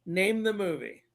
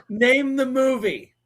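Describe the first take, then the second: First: Said in the usual way. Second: Loud, high, drawn-out challenge. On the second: Real, not acted. Host challenging listeners to guess the quoted film, loud drawn-out call. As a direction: call it out slowly like a quiz host.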